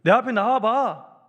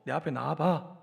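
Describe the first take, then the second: First: Loud, slow summons; one-sided command. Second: Low-pitched, understated order; quiet summons without any consoling; one-sided command. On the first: God calls sulking Elijah out of the cave, loud command. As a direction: call him out forcefully, word by word. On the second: God summons sulking Elijah from the cave, understated command. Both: Acted. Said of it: "오히려 일방적으로".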